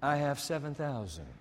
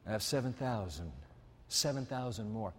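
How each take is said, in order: First: Lower, softer, hushed divine voice; quiet voice of God. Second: Much softer, lower, almost confiding; hushed divine voice. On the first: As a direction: say it gently, as God confiding. God's voice, quiet and low. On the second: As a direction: let it sink low and quiet. God's voice, very quiet repeat. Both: Acted.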